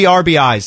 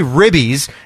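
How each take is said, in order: First: It is said as three separate letters. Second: It is said as one two-syllable word. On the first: "I would say it that way" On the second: "Because you say ribbies"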